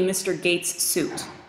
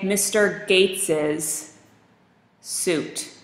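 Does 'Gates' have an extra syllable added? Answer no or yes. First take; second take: no; yes. First: Gates is said as one syllable. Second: Gates gets an extra final syllable. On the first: The speaker calls it wrong. "But that's not what you would say to him" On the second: The speaker calls it right. "You say Mister Gates's suit"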